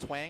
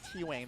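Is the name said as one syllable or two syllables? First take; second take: one syllable; two syllables. First: It is said as a single syllable. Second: A separate T sound comes before wang. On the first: "It's pronounced twang" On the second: "I thought it was T-wang the entire time"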